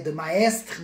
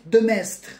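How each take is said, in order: First: The surname is pronounced a non-French way. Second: The surname is pronounced the French way. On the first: The speaker calls it wrong. "Não é de maestre" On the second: The speaker calls it right. "É Joseph de Maistre, em francês"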